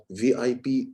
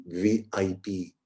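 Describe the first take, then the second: First: Lightly voiced from the mouth; weak mouth voice. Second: Lower, slow, from the throat; amplified throat voice. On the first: Coach contrasting mouth and throat, weak take. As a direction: say it weakly, from the mouth only. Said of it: "it sounds weak". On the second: Coach contrasting mouth and throat, amplified take. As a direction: speak it from the throat with confidence. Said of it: "it sounds amplified". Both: Shown as a demonstration.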